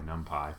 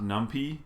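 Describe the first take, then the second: First: The word ends with a 'pie' sound. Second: The word ends with a 'pee' sound. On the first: The speaker calls it right. "which is short for numerical Python" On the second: The speaker calls it wrong. "It is not numpy"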